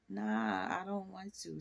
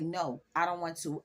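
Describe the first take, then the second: First: It is said in a playful, teasing tone. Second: It is said in a firm, serious tone.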